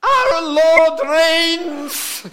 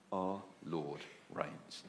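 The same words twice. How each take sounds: First: Very slow, high and much louder, proclaiming; old lady in the bath hoist proclaims it to Steve; old lady's proclamation. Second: Slow, soft and much lower proclamation; preacher quietly sums up the good news; solemn quiet. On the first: Retold or imitated. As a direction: ring it out like the old lady's triumphant cry. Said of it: "And she said". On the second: Acted. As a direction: lay it down gently, slowly, as the whole gospel. Sermon restates the lady's cry.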